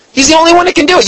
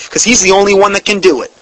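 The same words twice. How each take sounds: First: Soaring emphatic repeat, stress on one. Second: Said in the usual way. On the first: Real, not acted. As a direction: lift the whole line way up to drive it in.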